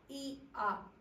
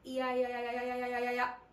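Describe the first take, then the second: First: The two vowels are said slowly and apart. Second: The vowels are said quickly, gliding together.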